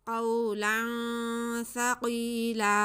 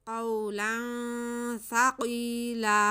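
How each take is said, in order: First: The last word ends with a long a. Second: The same.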